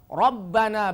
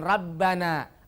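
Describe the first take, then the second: First: The r is pronounced heavy and full. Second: The r is pronounced light and thin. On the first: The speaker calls it right. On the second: The speaker calls it wrong.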